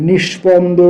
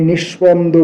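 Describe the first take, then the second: The two takes are said the same way.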